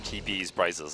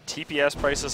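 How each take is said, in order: First: The S is said as a plural ending. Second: The S is said as its own letter. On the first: "Like, oh, T Ps are priceless"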